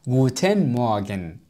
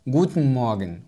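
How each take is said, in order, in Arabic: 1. يُنطق المقطع الثاني من Guten نطقًا كاملًا. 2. يُنطق المقطع الثاني من Guten قصيرًا ومختزلًا. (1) "وليس Guten Morgen" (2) "نلاحظ Guten Morgen"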